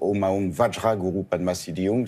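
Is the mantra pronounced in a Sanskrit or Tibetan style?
Sanskrit. It is pronounced in a Sanskrit way. "plus sanscrite"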